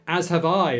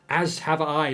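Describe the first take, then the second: First: The s sound is lisped. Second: The s sound is plain, without a lisp.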